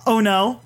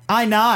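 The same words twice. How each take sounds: First: Said in the usual way. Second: "I nigh" for oh no, in Aussie; Australian accent. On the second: Shown as a demonstration. Friend showing how oh no sounds, Australian accent. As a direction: turn oh no into Australian. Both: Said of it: "It was, oh no".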